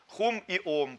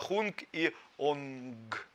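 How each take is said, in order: First: Each word ends with an m sound. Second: Each word ends with an ng sound. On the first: "на санскрите хум и хун" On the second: "А на тибетском это хунг и онг"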